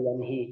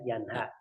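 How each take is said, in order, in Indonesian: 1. Vokal setelah h adalah i. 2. Vokal setelah h adalah a. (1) "atau yanhi" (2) "walha-nya juga di fathah"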